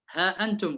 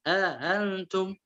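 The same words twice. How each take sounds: First: Said in the usual way. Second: ها أنتم with hamza eased; softened hamza in ها أنتم. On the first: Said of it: "تسهيل الهمزة". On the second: Shown as a demonstration. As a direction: glide from ha into antum without a hard stop. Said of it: "قرأ بالتسهيل".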